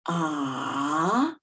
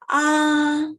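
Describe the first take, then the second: First: The pitch dips low, then rises. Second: The pitch stays high and level. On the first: "The third tone is from the lower pitch down to the lowest pitch and then up" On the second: "We keep on the highest page stateable"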